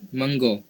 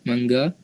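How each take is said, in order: First: It is said with Negeri Sembilan dialect pronunciation. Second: It is said with standard Malay pronunciation. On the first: "Untuk dialek Negeri Sembilan" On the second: "Untuk bahasa Melayu standard"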